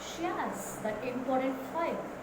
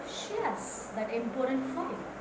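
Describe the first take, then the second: The two takes are said the same way.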